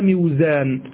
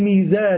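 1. المقطع الأول فيه انزلاق 'w'، وهو 'miw'. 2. المقطع الأول صوت 'mee' طويل. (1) "لا ميزان" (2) "ما الذي جعلنا نقول ميزان"

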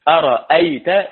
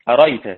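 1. الهمزة الثانية تُنطق كاملة. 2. الهمزة الثانية تُحذف تمامًا.

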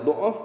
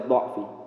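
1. Vokal pertama adalah bunyi u bulat. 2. Vokal pertama adalah bunyi a terbuka. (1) "Bi dhammi dhad boleh dibaca dhuuf" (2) "wa fathihah boleh dibaca fathah"

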